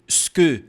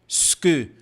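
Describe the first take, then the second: No difference in how they are said.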